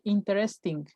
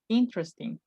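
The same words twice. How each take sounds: First: The middle e sound is pronounced. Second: The middle e sound is silent. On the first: The speaker calls it wrong. "Don't say interesting. That's not correct" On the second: The speaker calls it right. "Like if this E doesn't sound"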